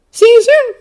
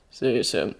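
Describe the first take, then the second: First: Put-on high, loud boy's voice; Peter, cheerful. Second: Low, soft man's voice; Bucky, understated. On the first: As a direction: sign off perkily as an eager kid. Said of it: "Peter says again a little more cheerfully". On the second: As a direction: sign off quietly, pitched well down. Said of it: "Bucky says". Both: A narrator's reading.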